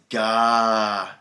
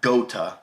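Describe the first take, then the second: First: The first vowel sounds like 'ah'. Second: The first vowel sounds like 'oh'. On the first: The speaker calls it right. "It's gata. Almost like gato in Spanish" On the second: The speaker calls it wrong. "It's not gota"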